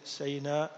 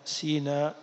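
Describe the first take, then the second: First: The first syllable has the vowel 'a'. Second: The first syllable has the vowel 'i'. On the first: "بفتح السين" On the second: "بكسر السين"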